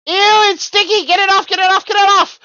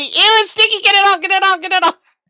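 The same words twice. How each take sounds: First: High frantic squealing, fast; phobic panic. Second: High loud disgusted squeal; phobic panic. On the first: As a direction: shriek in disgusted panic. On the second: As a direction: squeal it like she's covered in slime. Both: Acted. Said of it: "flailing about wildly".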